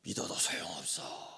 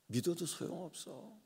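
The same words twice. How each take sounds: First: Bitter whisper. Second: Said in the usual way. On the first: Retold or imitated. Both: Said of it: "이런 얘기 하잖아요".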